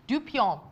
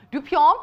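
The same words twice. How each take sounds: First: "Dupion" said as a statement with falling pitch; falling tune. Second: "Dupion" lifted at the end as a question; louder, higher "Dupion", rising to check it; questioning rise. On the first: Presenter trying out the fabric's name, "Dupion" with a falling tune. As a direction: let "Dupion" drop at the end. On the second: Presenter unsure of the fabric's name, "Dupion" with a questioning rise. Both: Real, not acted.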